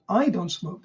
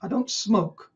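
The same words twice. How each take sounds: First: "I" raised and leaned on; stress on I. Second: "smoke" hit harder at the end; stress on smoke. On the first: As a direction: put the weight on "I", not on "smoke". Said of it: "the emphasis is in a different word". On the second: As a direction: hold back the weight until "smoke". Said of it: "the emphasis on the word smoke". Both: Shown as a demonstration.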